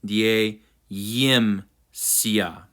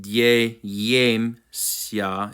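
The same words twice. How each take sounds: First: "die yim sia" slowly as dyeh-yim-syah; short ih in the middle of "die yim sia"; technically correct vowel. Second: "die yem sia" slowly as dyeh-yem-syah; full vowel version. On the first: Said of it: "it's technically". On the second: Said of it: "Instead of". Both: Shown as a demonstration.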